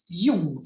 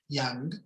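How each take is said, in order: First: The name is pronounced the German way. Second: The name is pronounced the English way. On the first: The person was Swiss, of German-speaking origin. The speaker calls it right. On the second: The person would be English or American. The speaker calls it wrong. "Si él fuera inglés o norteamericano, diríamos Young, pero no"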